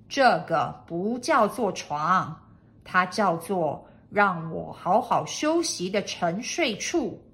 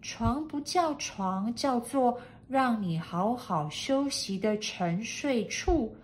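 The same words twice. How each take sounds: First: Loud lordly correction; name it grandly and loudly; projecting master's voice; pompous master. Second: Slow, doubting repetition; hesitant maid echoing in doubt; doubtful maid. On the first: Master names his bed. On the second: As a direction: repeat it slowly, unconvinced. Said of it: "怀疑地再说了一遍". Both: A narrator's reading.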